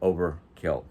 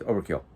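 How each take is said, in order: First: It is said slowly, like two separate words. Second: It is said quickly, run together as one word. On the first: "Sound like two words" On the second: "if you say it fast enough"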